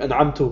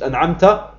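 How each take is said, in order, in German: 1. Das Wort endet auf den Vokal u. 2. Das Wort endet auf den Vokal a. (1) "habe ich an'amtu gesagt" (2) "Anstatt an'amta"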